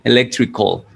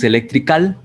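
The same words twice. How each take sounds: First: The last syllable has a weak, o-like vowel. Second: The last syllable has a full, open "al" vowel. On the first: The speaker calls it right. "sino electrical. En realidad esa A no debería sonar" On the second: The speaker calls it wrong. "no se pronuncia al, no es electrical"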